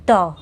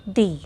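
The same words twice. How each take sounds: First: "the" said as "thuh", with a short schwa; short article "the". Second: "the" said as "thee", with a long ee; article "the" as "thee". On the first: Teacher showing students the correct "the" before a consonant, a short "thuh". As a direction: say "the" quick and weak, "thuh". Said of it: "we pronounce it the". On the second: Teacher showing students the wrong "the" to avoid, a long "thee". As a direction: stretch "the" into "thee". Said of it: "not the". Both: Shown as a demonstration.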